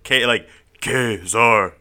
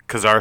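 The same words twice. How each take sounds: First: The two syllables are pronounced clearly apart. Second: The two syllables flow smoothly together. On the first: It sounds like a caveman's name. "they have to pronounce the syllables so separately" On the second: It sounds like a civilized name. "it just flows together"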